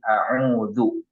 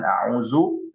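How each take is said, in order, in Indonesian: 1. Konsonan tengahnya bunyi th yang lembut. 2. Konsonan tengahnya bunyi z yang berdengung. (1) "tapi za, zal" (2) "Itu bukan zai"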